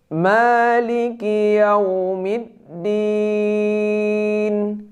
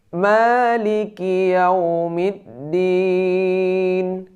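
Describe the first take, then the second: The two takes are said the same way.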